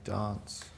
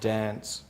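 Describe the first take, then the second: First: Dance is said the Adelaide way. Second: Dance is said the Brisbane way.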